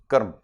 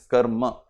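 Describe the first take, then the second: First: The final vowel is dropped, ending in m. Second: It ends with a full ma syllable. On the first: "it is the North Indian way of pronouncing, shortening the sound" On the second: "The ma is full"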